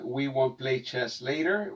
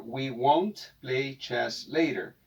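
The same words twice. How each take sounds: First: Said in the usual way. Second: "we won't play chess later" slowly, won't with a clear t; slow model English. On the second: Shown as a demonstration. Teacher slowly models the negative sentence for students. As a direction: spell out "won't" slowly for the class. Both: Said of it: "En negativo para esta oración".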